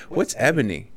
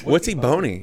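First: Ebony said as "EB-uh-nee"; corrected ebony. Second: Ebony said as "ee-BOH-nee", pitched up; mispronounced ebony. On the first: Guest asks about the corrected word, ebony as "EB-uh-nee". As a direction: ask with ebony stressed on EB. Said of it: "it's ebony, fool". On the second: Guest puzzles over magazine title, Ebony as "ee-BOH-nee". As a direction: put the stress on BO in Ebony. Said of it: "the quirky dude saying Ebony". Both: Retold or imitated.

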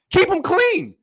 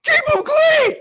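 First: Loud, pitched-up insistence; emphatic. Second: Full-throated high shout. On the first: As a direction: drive the point home. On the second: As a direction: yell it at the top of your lungs. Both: Real, not acted. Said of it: "All right, sorry".

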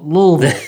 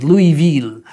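First: "Louisville" clipped to Lull-vull like the locals; locals' Lull-vull. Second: "Louisville" said loud as Louie-ville, the French way; French-style Louisville. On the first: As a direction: swallow "Louisville" into two short syllables, Lull-vull. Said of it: "as if it were L O V E L L". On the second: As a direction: give "Louisville" its proper Louie-ville sound. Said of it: "the correct pronunciation is Louisville". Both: Shown as a demonstration.

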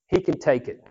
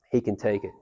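First: Said in the usual way. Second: Soft echo. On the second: Shown as a demonstration. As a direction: lower and softer, settling reassurance. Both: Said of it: "tell him".

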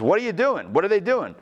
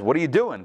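First: Higher, mock-exasperated asking; exasperated God. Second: Said in the usual way. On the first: God reacting to the request for a king, mock exasperated. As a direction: throw up your hands at the people. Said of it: "God says". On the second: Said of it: "So Samuel says".

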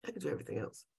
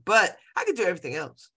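First: Much softer repeat to herself; softer echo. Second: Said in the usual way. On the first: Real, not acted. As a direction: say it again, softer, as if to yourself.

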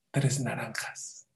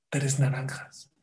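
First: Susurro. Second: Said in the usual way. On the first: Shown as a demonstration. Remate del relato, susurrado.

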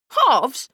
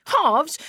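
First: Loud scornful echo, falling; contemptuous. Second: High scornful repeat; mock the word disbelievingly; contemptuous. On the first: Acted. Brother scorning his sister, loud and contemptuous. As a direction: spit the word back in scorn. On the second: Brother scorning his sister, high and scornful. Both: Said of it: "John went rigid with contempt".

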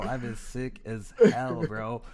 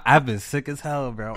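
First: Slow stuffy sick voice; congested. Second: Congested. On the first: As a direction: drag it out, nose blocked. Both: Real, not acted. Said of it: "I might sound a little congested".

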